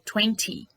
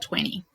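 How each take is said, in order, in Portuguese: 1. O som do T no meio é pronunciado claramente. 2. O som do T no meio é omitido. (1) "No inglês britânico, ... Com o som do T" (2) "A gente não pronuncia o T no inglês americano"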